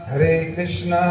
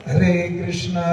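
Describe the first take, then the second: No difference in how they are said.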